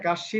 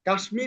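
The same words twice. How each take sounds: First: The sh is doubled with no m sound. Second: An m sound follows the sh. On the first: The speaker calls it right. "হবে" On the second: The speaker calls it wrong. "হবে না"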